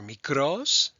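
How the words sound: It is said with a Greek pronunciation.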